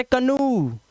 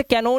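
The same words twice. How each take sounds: First: कनू as "ka-noo", ending drawn out. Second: कैनो read as spelt, "kai-no"; wrong O ending. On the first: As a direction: finish कनू on a long, falling "oo". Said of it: "इसे पढ़ते कनू". (कनू, अंत में लंबा ऊ) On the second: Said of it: "अब इसे कैनो नहीं पढ़ते". (कैनो, अंत में ओ की आवाज) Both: Shown as a demonstration.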